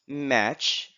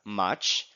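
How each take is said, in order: First: The vowel is the open front cat vowel. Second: The vowel is the open back father vowel. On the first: "we have match" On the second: "we Filipinos would read it as much"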